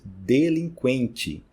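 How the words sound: The final syllable sounds like 'chi'. "Em português, ... Ti"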